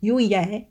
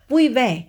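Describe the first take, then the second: First: The initial v shifts toward a y sound. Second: The initial v is a clear v sound.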